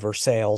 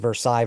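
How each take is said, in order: First: It is said with an anglicized local pronunciation. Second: It is said with a French-style pronunciation. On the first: This is how the speaker's home city says the name. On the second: This is how the name is said in France.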